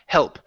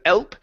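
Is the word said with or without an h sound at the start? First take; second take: with; without. First: The word starts with a clear h sound. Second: The word starts with no h sound. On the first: The speaker calls it right. "pronounce the H on help" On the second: The speaker calls it wrong. "instead of elp"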